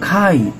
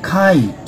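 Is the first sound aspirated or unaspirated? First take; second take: aspirated; aspirated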